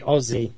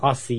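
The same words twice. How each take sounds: First: The middle consonant is a z sound. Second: The middle consonant is an s sound. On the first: The speaker calls it right. "it is actually Aussie" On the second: The speaker calls it wrong. "It's not Aussie"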